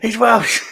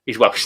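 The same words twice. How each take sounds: First: Amused exclaim. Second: Said in the usual way. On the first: Real, not acted. Repeats line, laughing.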